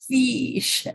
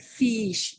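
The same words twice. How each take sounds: First: The odd pronunciation is strongly exaggerated. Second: The odd pronunciation is only mildly marked. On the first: "maybe a little bit more like fish" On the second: "Like fish"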